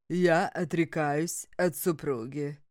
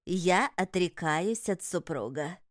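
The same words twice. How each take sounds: First: Slow, lower solemn vow; solemn renunciation. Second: Slow, solemn vow with stress on я; solemn renunciation. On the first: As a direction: declare it gravely as the husband. Husband's ritual renunciation. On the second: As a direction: declare it like a sacred oath. Ritual renunciation. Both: A narrator's reading.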